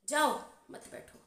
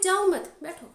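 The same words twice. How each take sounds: First: The pause comes after jao. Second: The pause comes after mat.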